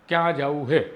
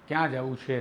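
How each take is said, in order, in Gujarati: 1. છેલ્લા શબ્દની શરૂઆત 'h' અવાજથી થાય છે. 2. છેલ્લા શબ્દની શરૂઆત 'ch' અવાજથી થાય છે. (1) "સૌરાષ્ટ્રના મોટા ભાગના હિસ્સામાં છેના બદલે હે જ બોલાય છે" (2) "નહીં"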